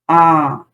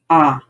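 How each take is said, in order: First: The vowel is held about twice as long. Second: The vowel is held briefly. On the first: "if I want to pronounce longer ah, I can I use two clicks" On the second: "usually mantra is the one finger click like. And this is ah"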